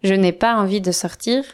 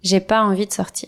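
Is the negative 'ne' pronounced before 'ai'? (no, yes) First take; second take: yes; no. First: The negative 'n'' is pronounced before 'ai'. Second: The negative 'n'' is left out before 'ai'. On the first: This is the formal or written form. The speaker calls it wrong. "on ne dit pas" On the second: This is the everyday spoken form. The speaker calls it right. "on dit"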